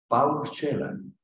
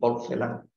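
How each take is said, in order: First: The name is pronounced the Romanian way. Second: The name is pronounced the everyday Spanish way. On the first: "en rumano" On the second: "como se usa eh, eh, vulgarmente en andaluz"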